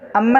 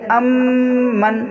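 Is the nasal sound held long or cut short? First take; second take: short; long. First: The nasal sound is cut short. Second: The nasal sound is held in the nose. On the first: The speaker calls it wrong. "अम्मन नहीं" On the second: The speaker calls it right. "नाक में आवाज़ ले जाके थोड़ी देर रोकना"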